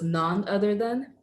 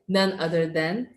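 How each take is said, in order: First: The first word sounds like 'non'. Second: The first word sounds like 'nun'. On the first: The speaker calls it wrong. "but the way you said it was none other than" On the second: The speaker calls it right. "you were saying none other than"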